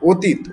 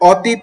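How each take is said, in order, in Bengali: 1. প্রথম স্বরধ্বনিটি একটি বদ্ধ 'o' ধ্বনি। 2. প্রথম স্বরধ্বনিটি একটি খোলা 'aw' ধ্বনি। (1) "ও ও স্বরে অ এর উচ্চারণটি হবে" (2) "তুমি আমার অতীত নিয়ে নয়"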